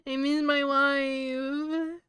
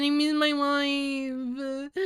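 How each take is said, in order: First: Mock wail. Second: Slow, drawn-out whiny lament, higher; hammed-up pining whine; mock wail. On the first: Mock lament for absent wife. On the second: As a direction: stretch it out like a pining drama queen.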